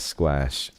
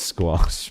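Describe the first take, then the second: First: The word is pronounced in a deliberately altered way. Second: The word has its usual standard pronunciation. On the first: The speaker calls it wrong. "intentionally mispronounce it that way" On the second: The speaker calls it right. "I know it's squash"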